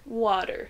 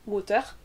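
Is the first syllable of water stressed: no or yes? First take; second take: yes; no. First: The first syllable is stressed. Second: The first syllable is not stressed. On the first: The speaker calls it right. "on va toujours prononcer la première syllabe plus fort, plus longtemps" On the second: The speaker calls it wrong. "On ne dit pas water ... comme on le dit souvent en français"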